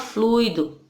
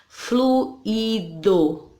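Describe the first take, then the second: First: The u and i are joined in one syllable. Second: The u and i are split into two syllables. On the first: The speaker calls it wrong. "A gente não fala fluido" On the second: The speaker calls it right. "Nós separamos quando falamos"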